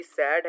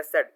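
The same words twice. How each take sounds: First: "सैड" with an open "a" as in cat; open-vowel SAD. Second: "सेड" with a short "e" as in bed; closed-vowel SED. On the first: Teacher showing two pronunciations, "सैड" with the open vowel. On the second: Teacher showing two pronunciations, "सेड" rhyming with bed. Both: Shown as a demonstration. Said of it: "दो तरह से pronunciate करते हैं".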